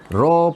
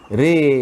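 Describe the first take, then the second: First: The r is followed by an o vowel. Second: The r is followed by an e vowel. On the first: The speaker calls it wrong. "Ro pun tidak" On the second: The speaker calls it right. "Kita baca Re"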